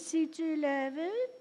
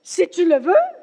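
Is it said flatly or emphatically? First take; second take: flatly; emphatically. First: It is said flatly, without exclamation. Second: It is said emphatically, as an exclamation.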